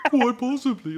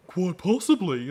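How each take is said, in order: First: Much higher, mopey whine; hammed-up lame whine. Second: Limp, slow mopey reply; mock mopey Lorne voice; lame deadpan. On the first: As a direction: whine it pathetically, pitched way up. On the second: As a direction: say it slowly, lamely giving in. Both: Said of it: "so lame the way he says it".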